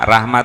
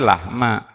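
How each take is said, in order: First: The word begins with a rolled R sound. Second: The word begins with an L sound.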